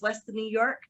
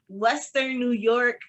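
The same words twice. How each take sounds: First: The phrase is spoken at a fast pace. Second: The phrase is spoken at a slower pace. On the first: "Sometimes I talk so fast" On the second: "I'm gonna say that slower"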